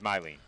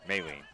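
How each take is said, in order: First: The first syllable sounds like 'my'. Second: The first syllable sounds like 'may'. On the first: This is how the player's name is actually said. The speaker calls it right. "but it is Mylene" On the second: This is how the official guide listed the name. The speaker calls it wrong. "The pronunciation guide that we were given"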